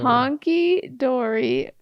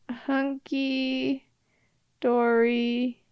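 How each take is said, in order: First: The first vowel sounds like the one in 'hot'. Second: The first vowel sounds like the one in 'hut'. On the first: The speaker calls it wrong. "you've been saying it wrong your whole life" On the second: The speaker calls it right. "It's hunky"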